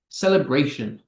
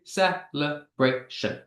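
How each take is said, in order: First: Said in the usual way. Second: "Celebration" slowly split into four beats; slow, evenly separated syllables in "Celebration". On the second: Shown as a demonstration. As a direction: sound out "Celebration" one syllable at a time. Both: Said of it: "how many syllables do these words have".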